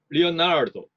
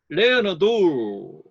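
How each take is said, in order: First: Only the middle syllable is stressed. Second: The first and last syllables are stressed. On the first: The speaker calls it right. "약강약으로 하면" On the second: The speaker calls it wrong. "강약강으로 하면"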